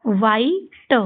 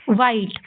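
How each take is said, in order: First: वाइट split into wai, pause, ta; sounded out. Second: Said in the usual way. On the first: Shown as a demonstration. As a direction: say वाइट slowly with the final t apart. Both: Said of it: "इस तरीके से आपको ये सारे शब्द पढ़ने हैं".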